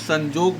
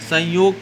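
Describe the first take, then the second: First: The middle consonant is a 'j' sound. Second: The middle consonant is a 'y' sound. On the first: This is the Nagpuri form. "संजोग बोला जाएगा" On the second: This is the standard Hindi form. "संयोग को"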